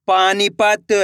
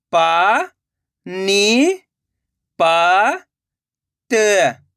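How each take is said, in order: First: Slow, stretched reading of the whole word; joined-up word. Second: Syllable by syllable. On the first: Teacher showing learners the finished word, slowly joined up. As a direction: blend the syllables into one drawn-out word. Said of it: "तो मिलके बन जाएगा". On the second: Teacher sounding out a word for learners, syllable by syllable. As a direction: separate drawn-out syllables with long gaps. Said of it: "एक एक अक्षर का उच्चारण करके". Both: Shown as a demonstration.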